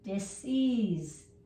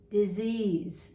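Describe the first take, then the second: First: Two separate parts with a clear s sound. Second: One smooth word with the s sounding like z. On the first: "dis, ease, dis, ease, dis-ease" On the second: "kind of slurred into disease"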